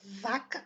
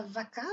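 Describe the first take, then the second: First: Vaca with strong VA and weak ending; stress on VA. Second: Vaca with a full, stressed CA; wrong final stress. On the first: Teacher shows correct vaca, stress on first syllable. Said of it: "c'est l'avant-dernière syllabe". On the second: Teacher shows the wrong vaca, stressing final CA. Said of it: "c'est pas vaca". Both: Shown as a demonstration.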